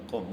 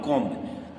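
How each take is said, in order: First: कॉम ending on M; no B at the close of कॉम; silent B. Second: कॉम्ब with a B released after M; B sounded. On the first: Teacher gives the correct reading, कॉम with silent B. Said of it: "इसको पढ़ते हैं कॉम". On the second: Teacher warns of the misreading, कॉम्ब with B sounded. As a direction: let the final B of कॉम्ब be heard. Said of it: "this is wrong". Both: Shown as a demonstration.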